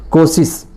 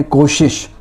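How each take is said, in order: First: कोशिश said kosis, with plain s sounds; wrong pronunciation. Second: कोशिश said koshish, both sh sounds clear; correct pronunciation. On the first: Teacher demos the wrong कोशिश as kosis. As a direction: say कोशिश as kosis, both sh turned to s. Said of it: "यहाँ पर उच्चारण आपका गलत है". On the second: Teacher models the correct कोशिश with clear sh. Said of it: "तो यहाँ पर शुद्ध ही हो गया". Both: Shown as a demonstration.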